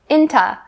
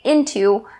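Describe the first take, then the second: First: The t stays but the last vowel is reduced. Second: Both syllables are full, with a clear t. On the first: "change into to inta, inta. This is the typical way that native speakers say this" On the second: "you can say into, but this really slows you down"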